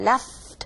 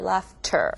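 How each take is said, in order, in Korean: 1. 마지막 'ter' 음절은 생략돼요. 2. 마지막 'ter' 음절은 분명하게 발음돼요. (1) "ter 나오기 힘들잖아요. Left, left 이렇게 되는데" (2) "laughter, laughter, like that"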